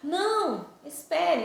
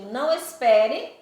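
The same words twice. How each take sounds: First: There is a pause after the first word. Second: The two words run together without a pause. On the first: It asks the listener to wait for the speaker. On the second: It asks the listener not to wait.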